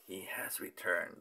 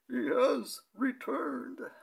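First: It is said in a plain voice. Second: It is said in a Dark Knight Rises Bane voice.

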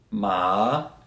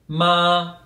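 First: The pitch dips low, then rises again. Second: The pitch stays high and level. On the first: It means horse. "If I use a falling and rising tone" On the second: It means mother. "so a very high pitch"

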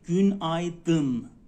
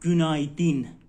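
First: The last vowel is a dull 'uh' sound. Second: The last vowel is a clear 'ee' sound. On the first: The speaker calls it right. "این آی بدون نقطه است" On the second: The speaker calls it wrong. "اگر اون نقطه داشته باشه میشه گونایدین، گونایدین نیست"

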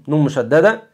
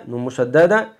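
The two takes are said the same way.

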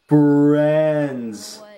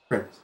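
First: The word is said with strong emphasis. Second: The word is said plainly without emphasis. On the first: "Sora accentuates, like, the friends" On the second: "And then Tarzan's just like"

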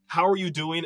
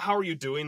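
First: It sounds earnest and sincere. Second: It sounds casual and offhand.

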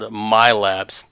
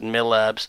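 First: The first vowel is said long. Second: The first vowel is said short. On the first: "we have the long vowel sound" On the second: "depending on where you're from and how you pronounce it"

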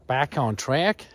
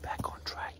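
First: It is said in a put-on American accent. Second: It is said in the speaker's own accent.

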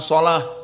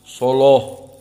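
First: The L is light with a clear 'a' vowel. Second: The L is heavy with a dark vowel. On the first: "seperti jumhur" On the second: "tapi taghlidz lam"

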